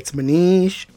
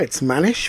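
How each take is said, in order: First: The name is said with an Indian accent. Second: The name is said with a British accent.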